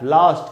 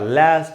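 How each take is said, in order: First: It is said in a British accent. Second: It is said in an American accent.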